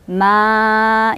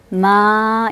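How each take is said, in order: First: 마 followed by a separate vowel; 마 said in broken beats; wrong split reading. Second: 마 held long in one breath; 마, stretch it smoothly; long vowel. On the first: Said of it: "이렇게 읽을까요". (마를 끊어서 틀리게) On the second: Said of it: "이렇게 읽으실 수 있는". (마를 한 번에 길게) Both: Shown as a demonstration.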